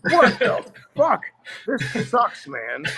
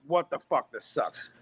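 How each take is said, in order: First: Put-on a fifteen-year-old crushed by his present; teen disgust. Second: Quieter, deflated grumble of disappointment; a sulky mumble under the breath; muttered disgust. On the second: Retold or imitated. Teen sulks over his birthday apron, quiet and deflated. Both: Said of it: "I'm like".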